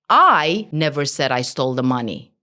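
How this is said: The stress falls on the first word, I. Someone else said it. "Focus on the I"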